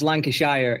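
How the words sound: It is said the way Americans say it.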